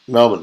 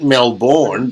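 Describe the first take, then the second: First: The city name is said the Australian way. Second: The city name is said the outsider way. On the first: This is how locals say it. The speaker calls it right. "but it's it's Melbourne" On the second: This is how people abroad say it. The speaker calls it wrong. "you lot over there pronounce it"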